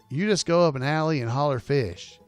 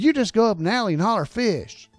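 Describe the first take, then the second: First: It is read in a normal, plain voice. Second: It is said in a put-on character voice.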